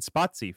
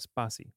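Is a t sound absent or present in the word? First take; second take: present; absent. First: A t sound is heard in the word. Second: No t sound is heard in the word. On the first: The speaker calls it wrong. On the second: The speaker calls it right.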